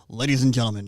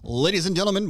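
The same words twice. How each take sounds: First: It is announced in a deeper, minor-key voice. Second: It is announced in a bright, major-key voice.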